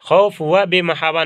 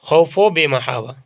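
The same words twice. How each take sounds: First: The 'va' is said as a separate word. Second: The 'va' is joined to both neighbouring words. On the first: The speaker calls it wrong. "न पढ़िएगा" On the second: The speaker calls it right. "वाव को इसी तरीके से दोनों से मिला देंगे"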